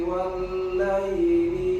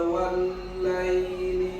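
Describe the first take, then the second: Both takes have the same delivery.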